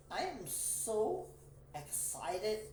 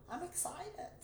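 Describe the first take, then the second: First: "so" stretched slow and high; stress on so. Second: High excited squeal. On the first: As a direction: draw out "so" in "I am so excited". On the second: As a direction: burst out excited. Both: Real, not acted.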